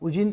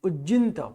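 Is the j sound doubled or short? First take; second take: short; doubled. First: The j sound is short and single. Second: The j sound is held and doubled. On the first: The speaker calls it wrong. "उजिंत नहीं" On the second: The speaker calls it right. "उ और ज आधा"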